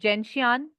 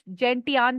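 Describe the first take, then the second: First: The middle consonant is a 'sh' sound. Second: The middle consonant is a 't' sound. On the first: The speaker says it this way. "I pronounce is जेंशियान" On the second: Some other people say it this way. "कुछ जेंटियान भी बोलते हैं"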